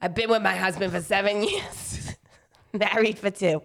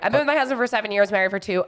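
First: It is read in a put-on New Jersey accent. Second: It is read in the speaker's ordinary voice. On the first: "Read the whole question in that voice" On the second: "No, I'm not doing that"

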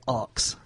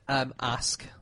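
First: The word is said as 'aks', like ox. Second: The word is said as plain 'ask'. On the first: "People in London say ox" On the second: "you know the word ask"

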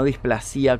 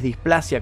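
First: The stress falls on another syllable, not the A. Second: The stress falls on the syllable with the A. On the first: The speaker calls it wrong. "no displasia como dije en el video anterior" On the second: The speaker calls it right. "con acento en la A"

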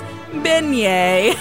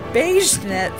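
First: It sounds like ben-yay, with no final t. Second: It sounds like the two words beige net. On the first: The speaker calls it right. "The actual item is delicious and it is beignet" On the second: The speaker calls it wrong. "I pronounced it beige net for the longest time"

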